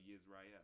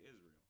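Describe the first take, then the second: First: The word starts with a Y sound. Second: The word starts with a vowel sound. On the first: This is the Hebrew form. "or Yisrael" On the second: This is the usual American form. "here in America, we say Israel"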